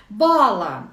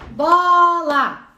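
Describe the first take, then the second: First: Said in the usual way. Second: "Bola" stretched into two long, loud syllables; loud, slow syllable-counting "Bola". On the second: Shown as a demonstration. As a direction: sound out "Bola" as BOOO-LAAA, higher-energy and drawn out. Demonstrating syllable counting for the word.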